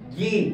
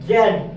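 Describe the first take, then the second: First: The letter is said as 'zee', American style. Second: The letter is said as 'zed', British style. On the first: "American প্রোনাউন্সিয়েশনে আপনি pronounce করবেন জি" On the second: "British প্রোনাউন্সিয়েশনে আপনি pronounce করবেন জেড"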